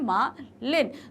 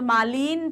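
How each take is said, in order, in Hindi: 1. दूसरे अक्षर में छोटा 'i' स्वर है। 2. दूसरे अक्षर में लंबा 'ee' स्वर है। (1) "छोटी की मात्रा आ रही है" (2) "हम यहाँ तो मालिन तो नहीं बोल रहे हैं"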